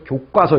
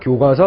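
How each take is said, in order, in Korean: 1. 둘째 음절은 경음으로 시작해요. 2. 둘째 음절은 평음으로 시작해요.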